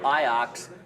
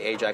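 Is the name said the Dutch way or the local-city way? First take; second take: Dutch; local-city. First: The name is said the Dutch way. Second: The name is said like the local city. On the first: This is how the club's name is really said. The speaker calls it right. "that's how you say it" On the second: This is how the speaker's local city is named. The speaker calls it wrong. "You don't say Ajax. Because we have a city called Ajax"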